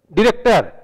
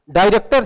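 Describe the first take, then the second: First: डायरेक्टर said "di-rektar", first vowel reduced; shortened डायरेक्टर. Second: डायरेक्टर said "daai-rektar" with a full "aai". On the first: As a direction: squeeze डायरेक्टर down to "direktar". (डायरेक्टर छोटा करके "डिरेक्टर") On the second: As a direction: open the first syllable of डायरेक्टर as "daai". (डायरेक्टर पूरा "डाय" के साथ) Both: Shown as a demonstration. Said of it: "साहित्य से साहित्य".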